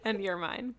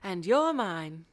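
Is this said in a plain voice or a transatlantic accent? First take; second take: plain; transatlantic. First: It is said in a plain everyday voice. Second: It is said in a put-on transatlantic accent.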